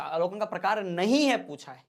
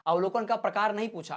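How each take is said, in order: First: Emphatic teacher's warning, leaning on नहीं; stress on नहीं. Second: Said in the usual way. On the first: Shown as a demonstration. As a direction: hit the word नहीं hard. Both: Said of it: "याद रखना, नहीं लगा".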